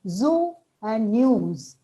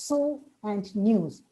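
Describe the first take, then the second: First: The words are said with a buzzing z sound. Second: The words are said with a hissing s sound. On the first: The speaker calls it right. "It's zoo and news" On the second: The speaker calls it wrong. "we tend to pronounce it as so and news because sa is there, but z is not there"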